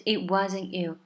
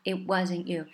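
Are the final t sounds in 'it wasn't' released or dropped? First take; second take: dropped; dropped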